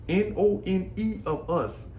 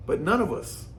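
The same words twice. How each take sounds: First: "N O N E" spelled letter by letter, slow; spelled out for emphasis. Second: Said in the usual way. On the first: Shown as a demonstration. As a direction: spell out N O N E slowly to drive it home.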